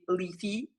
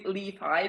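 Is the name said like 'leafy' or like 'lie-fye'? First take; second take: leafy; lie-fye. First: The name sounds like the word leafy. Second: The name is said as Li-Fi, not leafy. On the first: It is the speaker's habitual pronunciation. The speaker calls it wrong. "for me, it's normal to say Leafy" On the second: It is the official pronunciation. The speaker calls it right. "but it's actually Li-Fi"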